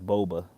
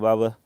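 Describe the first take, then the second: First: The first vowel sounds like 'oh'. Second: The first vowel sounds like 'ah'. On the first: "Maybe it's Boba" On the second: "I always say Baba"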